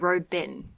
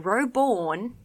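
First: The final syllable is reduced, like in Melbourne. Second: The final syllable is pronounced fully, like born.

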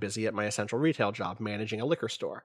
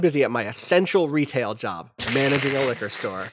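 First: It is read in a plain, ordinary tone. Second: It is read in a solemn, dramatic tone.

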